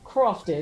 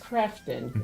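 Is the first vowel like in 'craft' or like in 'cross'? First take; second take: cross; craft. First: The first vowel sounds like the one in cross. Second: The first vowel sounds like the one in craft. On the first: The speaker calls it wrong. "It is not Crofton" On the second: The speaker calls it right. "let me say it right"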